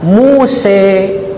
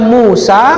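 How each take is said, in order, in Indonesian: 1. Vokal akhirnya adalah bunyi 'e'. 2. Vokal akhirnya adalah bunyi 'a' terbuka. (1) "juga dibenarkan membaca Muse. Tapi tidak populer" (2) "Di Al-Quran tiasa orang maca Musa"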